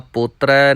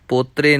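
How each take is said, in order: First: The word ends in an 'ai' vowel. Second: The word ends in an 'e' vowel. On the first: The speaker calls it right. "ਦੁਲਾਵਾਂ ਦੇ ਨਾਲ ਹੀ ਉਚਾਰਨ ਕਰਨਾ ਹੈ" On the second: The speaker calls it wrong. "ਪੋਤਰੇ ਨਹੀਂ ਕਹਿਣਾ"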